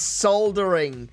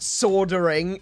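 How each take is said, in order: First: The word is said with an L sound. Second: The word is said without an L sound. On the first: The speaker calls it right. "There's an L in it. Pronounce the L" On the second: The speaker calls it wrong. "It's not soldering"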